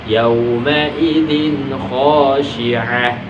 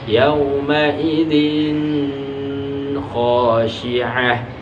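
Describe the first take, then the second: First: The n sound is said clearly and released at once. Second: The n sound is held before the kh. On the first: The speaker calls it right. "harus dibaca jelas" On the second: The speaker calls it wrong. "tidak boleh"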